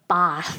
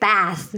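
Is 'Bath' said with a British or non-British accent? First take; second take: British; non-British. First: It is said with a British vowel. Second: It is said with a non-British vowel.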